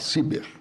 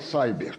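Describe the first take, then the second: First: The word sounds Portuguese, starting like 'see'. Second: The word sounds English, starting like 'sigh'. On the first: "nacionalizar a minha" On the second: "agora vou adotar a sua pronúncia"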